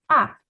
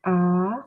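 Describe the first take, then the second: First: The pitch falls sharply, like a snap. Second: The pitch rises from middle to high. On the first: "Keempat kita ngebentak" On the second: "Nada kedua naik"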